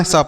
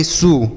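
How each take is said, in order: First: स with an open "a", no "oo"; open a vowel. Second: सु with an "oo" vowel; wrong u vowel. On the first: Teacher gives children the correct sound, स with an "a" vowel. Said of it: "स पढ़ना है". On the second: Teacher warns children off a misreading, सु said with "oo". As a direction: round the vowel of सु into "soo". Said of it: "सु नहीं पढ़ना". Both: Shown as a demonstration.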